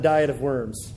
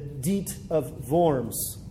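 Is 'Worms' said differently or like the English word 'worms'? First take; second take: like English; differently. First: Worms is said like the English word worms. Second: Worms is not said like the English word. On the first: The speaker calls it wrong. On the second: The speaker calls it right.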